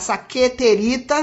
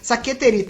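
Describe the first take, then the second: First: The word is said slowly. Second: The word is said at normal speed.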